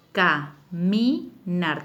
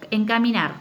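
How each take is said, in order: First: "caminar" split into ca, mi, nar, very slow; syllable by syllable. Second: Said in the usual way. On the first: Shown as a demonstration. Teacher showing pupils the syllables, "caminar" said syllable by syllable. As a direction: say "caminar" in separate drawn-out syllables with pauses. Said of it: "Cada una está en una sílaba distinta". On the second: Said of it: "que es la segunda palabra".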